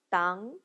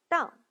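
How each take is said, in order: First: The pitch rises from mid to high. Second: The pitch falls sharply from high.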